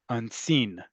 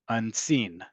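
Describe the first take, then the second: First: The stress is on the second syllable. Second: The stress is on the second syllable.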